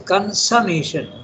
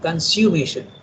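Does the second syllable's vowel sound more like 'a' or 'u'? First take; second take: a; u. First: The second syllable has a short 'a'-like vowel. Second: The second syllable has an 'oo' vowel, like consume. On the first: The speaker calls it right. "Consummation is pronounced like an A" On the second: The speaker calls it wrong. "not a U"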